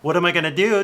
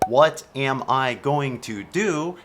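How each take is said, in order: First: The words are reduced and run together. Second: Each word is pronounced fully and separately. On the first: The speaker calls it right. "totally sounds like you speak English like a normal person" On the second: The speaker calls it wrong. "sounds really unnatural"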